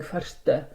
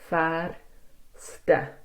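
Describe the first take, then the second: First: The R runs straight into the following sounds. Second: A short breath separates the R from the ending. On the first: The speaker calls it wrong. "the R is like influencing the next few words, like you're going förste" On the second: The speaker calls it right. "you should try to breathe after that R"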